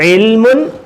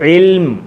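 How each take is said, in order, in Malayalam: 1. ഈ വാക്ക് അവസാനിക്കുന്നത് ചേർത്ത 'un' ശബ്ദത്തോടെയാണ്. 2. ഈ വാക്ക് അവസാനിക്കുന്നത് ശുദ്ധ അന്ത്യ വ്യഞ്ജനത്തിലാണ്. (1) "എഴുതിയേക്കുന്ന ഇൽമുൻ അങ്ങനെയല്ല പറയുന്നത്" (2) "ഫുൾ സ്റ്റോപ്പ് ഇൽം"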